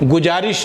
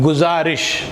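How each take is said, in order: First: The consonant is a j sound. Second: The consonant is a z sound. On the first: The speaker calls it wrong. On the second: The speaker calls it right.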